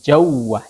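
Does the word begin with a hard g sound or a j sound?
j sound. The word begins with a j sound. This is the Saudi dialect form. "Kalau Saudinya jawah"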